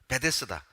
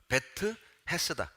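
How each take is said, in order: First: It is said as one word, 'bedesda'. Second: It is said as two parts, 'bet hesda'. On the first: This is the usual Korean form. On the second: This is the original Hebrew form.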